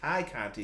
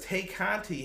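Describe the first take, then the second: First: The first name rhymes with 'tie'. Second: The first name rhymes with 'day'. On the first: The speaker calls it right. "it's Ty" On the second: The speaker calls it wrong. "Why do I keep saying Tay?"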